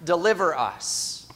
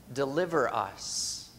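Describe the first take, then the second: First: A heartfelt cry of deliver us; earnest plea to be delivered; fervent prayer. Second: Quiet prayer. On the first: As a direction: plead the words deliver us with fervor. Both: Acted. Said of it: "from all of the struggles".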